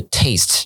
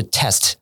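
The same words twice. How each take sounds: First: Slow "taste" with a gliding "ay" vowel; long A. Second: "test" with a short "eh" vowel. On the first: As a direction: stretch "taste" through "ay". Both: Shown as a demonstration. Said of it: "只有母音上面的一个差别".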